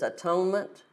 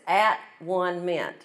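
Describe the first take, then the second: First: The word is said smoothly as one unit. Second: The word is split into three separate parts.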